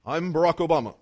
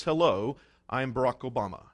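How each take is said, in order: First: A hint of Obama's measured cadence; lighter Obama impression. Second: Low, measured presidential voice; deep slow Obama impression. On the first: Preacher repeating the President's greeting, lightly imitated. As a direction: repeat the name in a mild presidential voice. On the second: Preacher mimicking the President introducing himself, deep and slow. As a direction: drop the pitch and drawl it like Obama. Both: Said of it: "has to talk like that".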